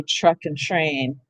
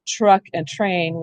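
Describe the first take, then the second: First: Truck and train said slowly with ch r; truck and train said as chruck. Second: Truck and train said slowly with clear t r. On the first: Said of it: "We say truck and train". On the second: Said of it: "same thing with". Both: Shown as a demonstration.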